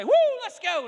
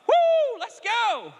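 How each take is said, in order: First: High, loud whoop at the game; excited cheering. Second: High, loud whoop of joy; shout of praise. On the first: Retold or imitated. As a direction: cheer your kid's team on hard. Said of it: "I would say". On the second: Shown as a demonstration. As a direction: whoop it out like a cheering fan. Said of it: "It's shouting".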